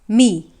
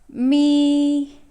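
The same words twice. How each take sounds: First: The pitch is low and dipping. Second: The pitch stays high and level. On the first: "the third tone goes like this" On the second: "the first tone goes me"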